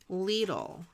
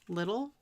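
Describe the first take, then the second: First: It is said unlike the English word little. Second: It is said like the English word little. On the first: The speaker calls it right. "I've seen it on T V where it's pronounced Lidl. ... And not little" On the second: The speaker calls it wrong. "It sounds like little"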